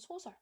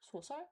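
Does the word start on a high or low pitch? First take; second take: high; low. First: The word starts on a high pitch. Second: The word starts on a low pitch. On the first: The speaker calls it right. "but 소문 and 소설" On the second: The speaker calls it wrong. "Not 소문, 소설"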